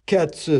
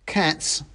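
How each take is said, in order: First: High word, echoed in character; corrected revolutionary mouse. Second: Short, high correction; correcting soldier mouse. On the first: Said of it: "said the other". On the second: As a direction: put the comrade right as the mouse soldier. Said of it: "corrected the mouse with the carving knife". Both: A narrator's reading.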